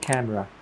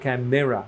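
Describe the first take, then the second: First: The middle vowel is dropped. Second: The middle vowel is clearly pronounced. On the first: The speaker calls it right. "এটাও কিন্তু ওরা বলে না, বলে" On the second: The speaker calls it wrong. "ময়ের পরে যে এ দিলাম"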